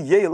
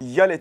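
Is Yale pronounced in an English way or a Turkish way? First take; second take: English; Turkish. First: The name is pronounced the English way. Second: The name is pronounced the Turkish way. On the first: This is the original, correct reading. "Aslında bunun doğru okunuşu" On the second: This is how people in Turkey usually say it. "Türkiye'de daha çok Yale telaffuzu kullanılıyor"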